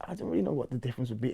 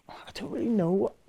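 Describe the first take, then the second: First: Said in the usual way. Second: A high unvoiced whisper to himself; whispered aside. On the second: Real, not acted. Whispering to himself while unsure of the difference. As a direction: breathe the words out, thinking aloud. Musing aloud on grime versus drill.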